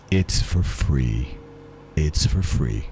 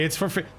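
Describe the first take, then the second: First: Much lower, slow deep voice. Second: Said in the usual way. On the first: Pretend. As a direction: drop way down and drag it out.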